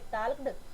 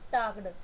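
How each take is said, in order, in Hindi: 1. इसमें 'ah' स्वर है, जिसमें L बोला जाता है। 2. इसमें 'ah' स्वर है, जिसमें L नहीं बोला जाता है। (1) "इस वर्ड को रॉन्ग प्रोनाउंस करते हैं" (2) "या तो प्रोनाउंस करेंगे इसको टाक्ड"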